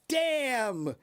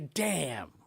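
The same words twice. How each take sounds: First: It is said with an excited, positive tone. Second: It is said with a negative, unexcited tone. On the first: Something is impressive or amazing. "that that sounds like I'm excited, like wow" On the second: Something is bad or disappointing. "that's different"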